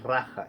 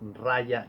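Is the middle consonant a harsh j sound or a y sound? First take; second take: harsh j; y sound. First: The middle consonant is a harsh throaty j. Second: The middle consonant is a soft y sound. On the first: The speaker calls it wrong. "la pronunciación en español es con la ja" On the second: The speaker calls it right. "la j se pronuncia como ya"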